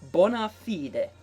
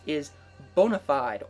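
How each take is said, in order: First: It is said with a Latin pronunciation. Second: It is said with an English pronunciation.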